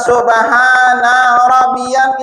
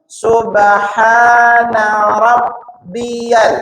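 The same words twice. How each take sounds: First: A vowel is stretched out too long. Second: The vowels are kept short and even. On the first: The speaker calls it wrong. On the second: The speaker calls it right.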